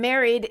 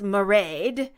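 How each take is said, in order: First: The name sounds like the English word 'married'. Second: The name sounds like 'ma-raid', ending in 'raid'. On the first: The speaker calls it wrong. "the name Married" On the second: The speaker calls it right. "is pronounced Mairead"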